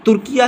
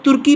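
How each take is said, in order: First: Turkiya with a final -ya; the official form Turkiya, three syllables. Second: Turki, ending straight on -ki; the everyday form Turki, two syllables; common "Turki". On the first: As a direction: add -ya to make Turkiya. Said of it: "इसका official name तुर्किया है". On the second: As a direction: say Turki without the final -ya. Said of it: "अब इसको लोग तुर्की पढ़ते हैं". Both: Shown as a demonstration.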